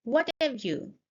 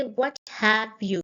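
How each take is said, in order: First: "What have you" run together; connected-speech "What have you", "have" reduced; linked reduced words. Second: Slow, separate "What have you"; each word of "What have you" kept apart; unlinked full words. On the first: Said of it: "I didn't say, "What have you?". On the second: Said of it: "I didn't say". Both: Shown as a demonstration.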